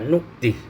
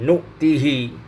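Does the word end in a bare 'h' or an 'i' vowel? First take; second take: bare h; i vowel. First: The word ends on a bare 'h' sound. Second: The word ends with an 'hi' vowel sound. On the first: This is another traditional reading. "Hamzah dibaca nu'tih" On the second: This is one traditional reading. "dalam ... riwayat hafaz"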